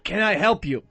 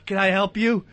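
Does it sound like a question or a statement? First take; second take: statement; question. First: It sounds like a flat statement, falling at the end. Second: It sounds like a question, rising at the end.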